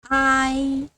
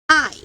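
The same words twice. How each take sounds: First: It is said with the first tone. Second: It is said with the fourth tone. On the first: "First tone" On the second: "Fourth tone"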